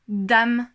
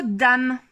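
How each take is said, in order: First: "dame" said louder as a single beat; one-syllable demo. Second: Said in the usual way. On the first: Shown as a demonstration. Teacher shows a one-syllable word, "dame" said louder. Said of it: "il n'y a qu'une seule syllabe". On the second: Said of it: "Si à présent votre enfant".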